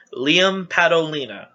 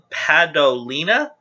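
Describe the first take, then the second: First: "Liam Padolina" as a statement, falling at the end; settled reading. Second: "Padolina" slowly, with a questioning rise at the end; unsure reading. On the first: Reader announcing a contestant, "Liam Padolina" falling, decided. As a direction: settle on "Padolina" with a closing fall. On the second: Reader trying a contestant's surname, "Padolina" slow and rising, unsure. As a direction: sound out "Padolina" as a tentative question. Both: Real, not acted. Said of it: "if I'm mispronouncing your names".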